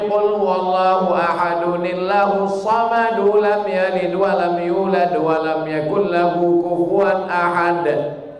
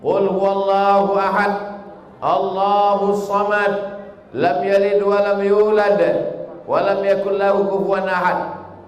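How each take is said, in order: First: The verses run on without stopping between them. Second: It stops with a pause after each verse.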